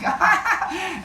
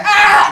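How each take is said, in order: First: High, laughing squeal; giggling cry. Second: High, loud yelp; mock pain yell. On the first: Acted. Teacher inwardly giggling at the bitten man, high laughing squeal. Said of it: "I just start giggling". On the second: Rescuer bitten by the kid he grabs, high mock yell. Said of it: "the kid bites him".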